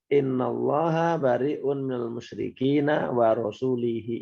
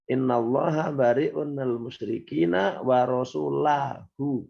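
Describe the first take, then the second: First: The final word ends with an 'ihi' sound. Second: The final word ends with an 'ahu' sound. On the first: God is free of the idolaters and of his messenger. The speaker calls it wrong. "Itu salah itu bacaan itu sebetulnya" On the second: God and his messenger are free of the idolaters. The speaker calls it right. "Yang benar apa?"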